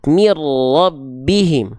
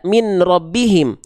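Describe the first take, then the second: First: The n merges into the r. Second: The n is kept before the r. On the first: The speaker calls it right. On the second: The speaker calls it wrong. "nggak dibaca"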